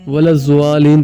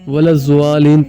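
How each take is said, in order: First: The key consonant is a 'z' sound. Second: The key consonant is a 'z' sound.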